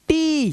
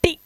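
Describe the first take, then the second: First: "टी" with a long held ee; long vowel. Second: "टी" said with a short, quick i; wrong reading of "टी", brief i; short-vowel mistake. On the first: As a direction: stretch out the ee in "टी". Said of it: "long vowel sound देता है". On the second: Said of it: "टी नहीं पढ़ना है". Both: Shown as a demonstration.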